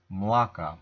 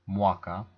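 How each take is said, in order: First: Mlaka said with a clear l, not a w; eastern pronunciation. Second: Mwaka said with a w sound; mwaka, the west Lemko way with w; western pronunciation. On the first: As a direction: mlaka with a firm l. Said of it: "I would say mlaka". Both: Shown as a demonstration.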